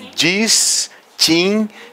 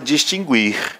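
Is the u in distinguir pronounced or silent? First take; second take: silent; pronounced. First: The u after g is silent. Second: The u after g is pronounced. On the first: "E a gente não ouve o som do U" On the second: "mas todo mundo fala distinguir"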